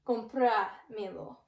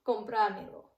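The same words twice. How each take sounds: First: Slow "Compramelo" with "pra" drawn out; slow stressed demonstration. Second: "compramelo" run together, stressing "pra"; natural-speed stressed demonstration. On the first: Teacher showing learners where the accent goes, slow and stressed. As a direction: stretch the accented syllable in "Compramelo". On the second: Teacher repeating the accented word for learners, at natural speed. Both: Shown as a demonstration. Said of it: "accent to help us pronounce it".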